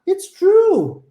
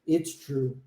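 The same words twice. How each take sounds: First: It is said with lively, expressive intonation. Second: It is said flatly, with little intonation. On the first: The speaker sounds genuinely convinced, like real conversation. The speaker calls it right. "a gente tem toda uma entonação em cima daquilo" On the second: The speaker sounds cold and lifeless. The speaker calls it wrong. "E não simplesmente"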